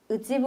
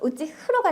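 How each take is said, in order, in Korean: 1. 세 번째 음절은 b 소리로 시작합니다. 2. 세 번째 음절은 h 소리로 시작합니다.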